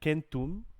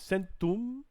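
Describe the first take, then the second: First: The word begins with a hard K sound. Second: The word begins with a soft S sound. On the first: The speaker calls it right. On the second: The speaker calls it wrong.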